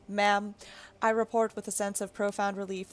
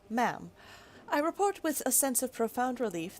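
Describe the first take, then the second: First: It is read in a put-on robot voice. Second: It is read in a normal speaking voice.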